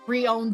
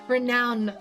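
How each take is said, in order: First: It is said as re-owned, with no n. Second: It is said as renowned, with an n. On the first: The speaker calls it wrong. "it was not re-owned this time" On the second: The speaker calls it right. "renowned this time"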